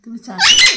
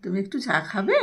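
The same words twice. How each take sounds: First: তুমি চা খাবে? said in a high squeaky parrot pitch; parrot-voice prompt. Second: Said in the usual way. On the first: Shown as a demonstration. Owner teaching her parrot the phrase, high squeak. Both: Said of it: "মনে আছে?".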